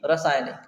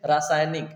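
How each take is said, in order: First: रासायनिक said the mistaken way many people say it; wrong pronunciation. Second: रासायनिक said carefully, every syllable clear, the correct way; correct pronunciation. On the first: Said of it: "ना कि". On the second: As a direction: say रासायनिक the proper teacher's way. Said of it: "तो हम बोलते हैं". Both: Shown as a demonstration.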